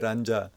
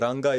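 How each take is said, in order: First: The middle consonant is a j sound. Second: The middle consonant is a hard g sound. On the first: The speaker calls it wrong. "you say Ranja, you're gone" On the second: The speaker calls it right. "instead of Ranga"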